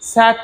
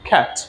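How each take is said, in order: First: The word begins with an s sound. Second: The word begins with a k sound. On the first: The speaker calls it wrong. "C এ টি স্যাট না" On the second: The speaker calls it right. "C A T খ্যাট"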